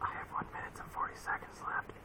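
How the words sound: It is whispered quietly, trailing off.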